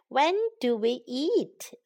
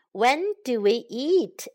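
No difference in how they are said.

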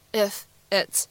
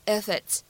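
First: Said in the usual way. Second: "if it's" run together as one word; "if it's" said with no break, like "i-fit's"; linked IF IT'S. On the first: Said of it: "两个单词放在一起呢". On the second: Shown as a demonstration. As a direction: carry the f of "if" into "it's". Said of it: "咱们可以做一个连读".

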